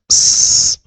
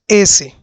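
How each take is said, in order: First: Only a bare hissing s sound is made. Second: The s comes together with a vowel sound. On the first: The speaker calls it right. "la letra S la pronunciamos S" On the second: The speaker calls it wrong. "no decimos S, ya que como todas las vocales suenan"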